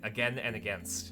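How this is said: It is said with an American pronunciation. "That's the American way of pronouncing it"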